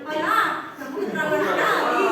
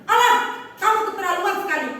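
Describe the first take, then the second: First: The line is spoken softly, without any force. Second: The line is spoken firmly, like a scolding. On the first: The speaker calls it wrong. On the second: The speaker calls it right. "dialognya saat kita mengucapkan agak tegas"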